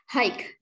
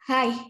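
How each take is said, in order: First: The word ends with a hard g or k sound. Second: The word ends on an open vowel sound. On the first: The speaker calls it wrong. "kalian tidak usah membaca hike" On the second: The speaker calls it right. "Cukup dibaca H I H"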